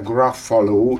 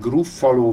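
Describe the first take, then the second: First: The first vowel sounds like 'a'. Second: The first vowel sounds like 'u'. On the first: "Angolul U-val írják, de graffaló" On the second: "gruffaló vagy graffaló"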